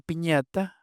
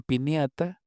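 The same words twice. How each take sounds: First: Said in the usual way. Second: "piniata" with n plus i glide; ñ split into N-I. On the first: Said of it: "En lugar de decir". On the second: Shown as a demonstration. Linguist showing what they say instead, ñ as ni. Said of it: "desdoblamiento al revés, de ñ en N I".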